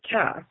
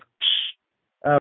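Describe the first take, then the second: First: The name starts with a plain k sound. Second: The name starts with a ksh sound. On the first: This is the form people could pronounce. "So they pronounce it Cass" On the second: This is the original form of the name. "but it's ksh, really"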